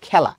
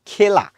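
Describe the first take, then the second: First: খেলা with an open অ্যা vowel, "khæla"; correct pronunciation. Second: খেলা with a closed এ, "khela"; wrong pronunciation. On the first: Teacher gives the everyday অ্যা-sounding খেলা. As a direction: say খেলা right, opening এ to অ্যা. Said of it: "তুমি বলো খেলা". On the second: Teacher shows the never-used closed-এ খেলা. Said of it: "তুমি কখনো বলো না খেলা". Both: Shown as a demonstration.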